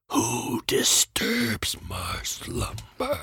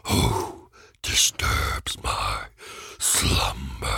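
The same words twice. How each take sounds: First: Slow, whispered cave-guardian voice; a hushed, ancient menacing voice; grinding stone statue. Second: Very slow, deep rumbling stone voice; grinding stone statue. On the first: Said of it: "That wasn't, that wasn't bad". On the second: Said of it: "That's much better". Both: Pretend.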